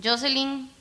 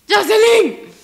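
First: Said in the usual way. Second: High, loud shouted name; alarmed call. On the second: Real, not acted. Player calling Jocelyn for help, alarmed shout.

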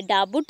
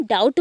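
First: डाबुट with the B sounded out; B pronounced. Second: डाउट with no B sound; silent B. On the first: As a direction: say डाबुट, wrongly voicing the silent B. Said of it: "डाबुट नहीं कहते हम इसे". (डाबुट, 'ब' की आवाज़ के साथ) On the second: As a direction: say डाउट, going straight from vowel to T. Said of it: "हम डाउट बोलते हैं". (डाउट, बिना 'ब' बोले) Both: Shown as a demonstration.

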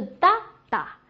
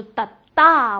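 First: "哒哒" with the first 哒 high and strong; strong first 哒, lighter second 哒; stress on first beat. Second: "哒哒" with the second 哒 punched loud; light first 哒, strong second 哒; stress on second beat. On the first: Teacher beating out the tens rhythm, weight up front. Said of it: "重音都是哒哒". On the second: Teacher beating out the teen rhythm, weight on the end. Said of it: "往后使劲儿啊". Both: Shown as a demonstration.

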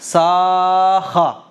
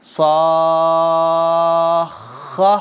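First: "साख़ा" without the doubled kh; wrong reading. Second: "साख़्ख़ा" with long aa and doubled kh held; stretched and doubled. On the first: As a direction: read "साख़ा" as a single kh, the wrong way. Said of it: "ये गलत है". ("साख़ा" बिना तशदीद के, गलत) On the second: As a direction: draw out "साख़्ख़ा" slowly, joining into kh. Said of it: "साद खा मद ज़बर". ("साख़्ख़ा" को खींचकर तशदीद के साथ) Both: Shown as a demonstration.

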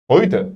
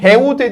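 First: "Heute" as "hoyte", low and falling; correct "Heute". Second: Slow, high "Heute" read letter by letter; wrong "Heute". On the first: Teacher giving students the right "Heute". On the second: Teacher showing class the wrong "Heute". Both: Shown as a demonstration. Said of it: "Heute değil".

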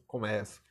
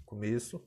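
First: "começo" as the verb, open stressed e. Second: "começo" with the noun's closed stressed e. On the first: Teacher contrasting verb with noun, open E in "começo". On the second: Teacher contrasting noun with verb, closed E in "começo". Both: Shown as a demonstration. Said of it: "como é diferente".

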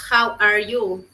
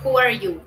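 First: "How" said with an "ow" glide; HOW pronunciation. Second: "Who" said as "hoo"; WHO pronunciation. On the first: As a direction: open "How" with the vowel of "now". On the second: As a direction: open "Who" with a long oo vowel. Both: Shown as a demonstration. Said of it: "la pronunciación cambia".

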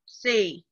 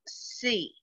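First: Said in the usual way. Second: "Sea" said softly with a chin dip; much softer sea. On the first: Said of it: "How many times does your chin go down?". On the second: Shown as a demonstration. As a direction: say sea quietly, almost to yourself. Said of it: "Or you could do it like this".

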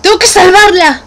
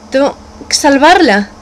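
First: Rising to a loud determined cry; shouting her resolve to save Frost. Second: Said in the usual way. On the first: Acted. Declaring she must save Frost, loud and determined.

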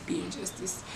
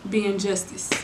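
First: Whispered under the breath, slightly off-mic; whispered self-correction. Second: Said in the usual way. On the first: Shown as a demonstration. Catching her own slip, she whispers it again. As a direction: murmur the flubbed phrase to yourself. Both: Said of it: "What is wrong with me?".

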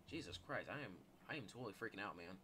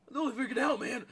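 First: Low, soft, quick admission; understated freak-out. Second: Loud, high put-on panic; hammed-up panicky outburst; mock freak-out. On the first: Pretend. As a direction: say it under your voice, fast. Says it low, then repeats high. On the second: Repeats the line in loud mock panic.

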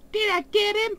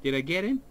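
First: High-pitched squeak. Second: Said in the usual way. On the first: Real, not acted. Repeats question much higher.

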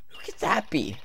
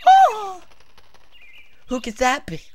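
First: Said in the usual way. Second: Higher, theatrical wondering; dramatic character read. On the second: Acted. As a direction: read it like an overacted game line. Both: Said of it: "What is wrong with me today?".

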